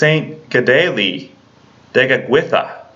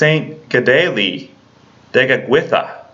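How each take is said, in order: First: The name is said the native Mohawk way. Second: The name is said the native Mohawk way.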